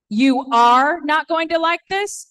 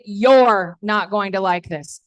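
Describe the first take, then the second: First: 'You are' is said as two full words. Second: 'You are' is contracted into one syllable. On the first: "you can say it" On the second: "or you can say it"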